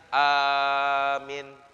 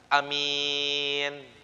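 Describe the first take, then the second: First: The first vowel is long, the second short. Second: The first vowel is short, the second long. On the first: "A-nya panjang, minnya pendek" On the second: "A-nya pendek, mimnya panjang"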